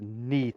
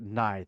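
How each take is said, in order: First: The name is said with an 'ee' vowel. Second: The name is said with an 'eye' vowel. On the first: The speaker calls it right. "she told me the other day it's Neath" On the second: The speaker calls it wrong. "I've been pronouncing it Ninth"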